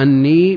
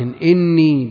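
First: The word begins with an 'a' vowel. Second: The word begins with an 'i' vowel. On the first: "بالفتح" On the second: "بكسر الهمزة"

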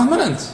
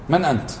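First: The question is asked in a contemptuous tone. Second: The question is asked in a neutral tone. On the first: The asker looks down on the other person. "اختلف" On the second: A genuine request for the person's identity. "يقول فلان فلان"

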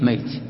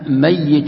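First: The middle y sound is short and single. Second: The middle y sound is long and doubled. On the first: The person has already died. "بالتخفيف ميت" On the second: The person is alive but will die. "إنك ميت يعني الآن أنت حي لكن مآلك إلى الموت"

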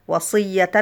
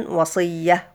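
Both takes have the same delivery.

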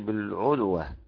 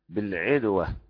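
First: The vowel after the ayn is u. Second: The vowel after the ayn is i. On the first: "والباقي" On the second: "اكسر ضمه حقا مع بالعدوة"

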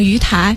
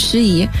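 First: The name is pronounced 'yu tai'. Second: The name is pronounced 'xu yi'. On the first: The speaker calls it wrong. "很多人见到盱眙这两个字会把它念成鱼台" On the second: The speaker calls it right. "其实真实的叫法应该是叫做盱眙"

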